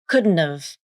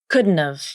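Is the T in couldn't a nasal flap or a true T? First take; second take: nasal flap; nasal flap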